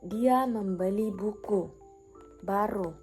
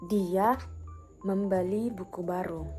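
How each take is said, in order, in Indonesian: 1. Tekanan jatuh pada kata buku. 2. Tekanan jatuh pada kata dia. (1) "Maksudnya yang dibeli adalah buku" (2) "Maksudnya dia yang membeli, bukan orang lain"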